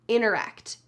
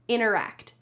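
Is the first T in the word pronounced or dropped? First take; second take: dropped; dropped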